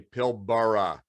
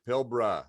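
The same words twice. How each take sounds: First: The first A is pronounced, North American style. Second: The first A is silent, Australian style.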